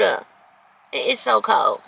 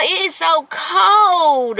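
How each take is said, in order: First: Said in the usual way. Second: Slow, higher drawn-out complaint; slow higher whine about the cold. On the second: Real, not acted. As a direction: stretch out how cold it is.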